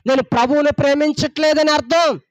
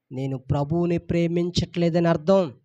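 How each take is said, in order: First: Louder and higher, hammering అర్థం; preached louder. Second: Said in the usual way. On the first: Shown as a demonstration. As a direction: drive the line home with force. Same line preached twice.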